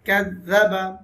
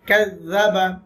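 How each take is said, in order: First: The doubled consonant sounds like 'th' in 'this'. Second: The same.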